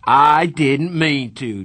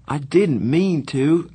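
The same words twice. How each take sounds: First: Slow, loud mocking echo; mocking shout. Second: Slow, pleading apology. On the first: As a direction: throw his words back, shouting. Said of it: "Darry shouted". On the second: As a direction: beg him to understand. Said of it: "I pleaded with Darry". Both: A narrator's reading.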